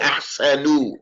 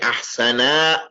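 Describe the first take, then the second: First: The word ends with an 'u' vowel. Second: The word ends with an open 'a' vowel. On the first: The speaker calls it wrong. "Don't say ahsanu" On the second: The speaker calls it right. "Say ahsana"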